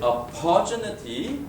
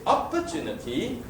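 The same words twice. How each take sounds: First: The stress is on the second syllable. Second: The stress is on the first syllable.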